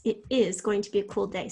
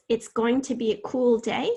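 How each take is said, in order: First: "it is" as two distinct words; uncontracted form. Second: Said in the usual way. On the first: Shown as a demonstration. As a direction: give "is" its full vowel after "it". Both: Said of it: "So it becomes it, apostrophe".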